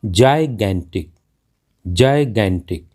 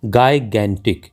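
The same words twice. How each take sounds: First: जायगैंटिक with a J sound first; correct pronunciation. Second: गायगैंटिक with a hard G first; common mispronunciation. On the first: Teacher modelling the word, correct pronunciation with J. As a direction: say जायगैंटिक as "jai-gantic". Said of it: "इसका सही pronunciation है". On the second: Teacher showing a common mistake, mispronounced with hard G. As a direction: say गायगैंटिक as "guy-gantic". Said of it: "जो कि कहना बिल्कुल गलत है". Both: Shown as a demonstration.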